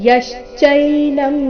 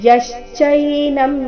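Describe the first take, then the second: Both takes have the same delivery.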